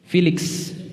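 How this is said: The name is said with American English pronunciation. "orang Amerika manggil siapa?"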